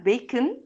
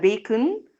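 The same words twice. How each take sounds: First: The second-syllable O is reduced, almost silent. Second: The second-syllable O is a full, clear vowel. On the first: The speaker calls it right. "الO هنا أهوّة تقريبًا ما اتنطقتش" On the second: The speaker calls it wrong. "ولا bacon"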